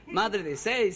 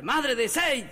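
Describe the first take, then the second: First: Said in the usual way. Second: High-pitched repeated call; mock yell. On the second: Husband calling his unresponsive wife, mock yell. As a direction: call out insistently, without full volume.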